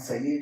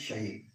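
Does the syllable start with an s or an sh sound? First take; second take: s; sh. First: The syllable starts with a plain s sound. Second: The syllable starts with an sh sound. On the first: The speaker calls it wrong. "It's not Saye" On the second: The speaker calls it right. "it's Shaye"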